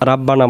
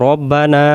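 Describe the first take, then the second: First: The final vowel is kept short. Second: The final vowel is held long. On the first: The meaning 'O our' is lost. The speaker calls it wrong. "রাব্বানা বলবেন না" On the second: It means 'O our Lord'. The speaker calls it right. "এটাকে টান দেব"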